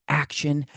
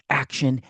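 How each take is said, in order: No difference in how they are said.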